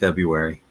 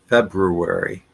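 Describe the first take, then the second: First: The first R sound is dropped. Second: Both R sounds are pronounced. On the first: The speaker calls it wrong. "It's not February" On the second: The speaker calls it right. "both R's are pronounced"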